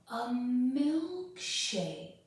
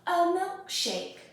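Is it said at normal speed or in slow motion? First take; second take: slow motion; normal. First: It is drawn out very slowly. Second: It is said at a normal speed.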